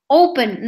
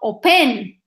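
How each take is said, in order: First: The stress is on the first syllable. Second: The stress is on the second syllable. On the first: The speaker calls it right. "The same happens with open. I say open" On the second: The speaker calls it wrong. "not open"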